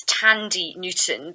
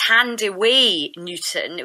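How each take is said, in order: First: "Tandy" in two syllables, no w sound; mispronounced name. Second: "Thandiwe" slowly, in three syllables ending "way"; real pronunciation of name. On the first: Reporter giving the name people wrongly used, mispronounced "Tandy". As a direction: say "Tandy" to rhyme with candy. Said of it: "people got her name wrong". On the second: Reporter giving the actress's real name, "Thandiwe" pronounced with its w. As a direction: sound the w in "Thandiwe", tan-dee-way. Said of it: "actually her real name is". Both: Shown as a demonstration.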